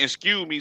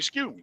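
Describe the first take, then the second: First: Each word is said fully and separately. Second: The words are clipped and run together. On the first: This is the usual way to say it. "instead of saying" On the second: Some Southerners cut their words short. "some people say"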